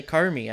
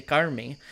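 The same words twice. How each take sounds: First: Said in the usual way. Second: CARMI said the native Tagalog way; corrected Tagalog pronunciation. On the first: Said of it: "I don't say Carmi". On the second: Shown as a demonstration. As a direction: say Carmi with a careful Tagalog accent. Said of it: "more correct to pronounce it that way".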